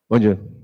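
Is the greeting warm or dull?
dull. It is said dully, without warmth.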